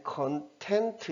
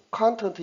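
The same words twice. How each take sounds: First: 컨텐트 with the stress on the second syllable, first syllable weak; conTENT, adjective. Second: 컨텐트 with the stress on the first syllable, a strong KAN; CONtent, noun. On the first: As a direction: say 컨텐트 as con-TENT. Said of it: "요 음에 강세가 안 들어가기 때문에". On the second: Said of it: "오가 강하게 칸으로 소리가". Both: Shown as a demonstration.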